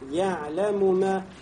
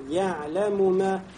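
First: The two m sounds are pronounced separately with vowels. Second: The same.

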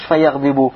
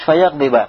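First: The word ends with a final u vowel. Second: The word ends with a final a vowel. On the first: The speaker calls it wrong. "Не говоришь фаягдыбу" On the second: The speaker calls it right. "а говоришь фаягдыба"

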